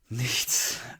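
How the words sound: It is said with enthusiasm. Having nothing planned is a welcome treat. "wenn man in meinem Alter ist"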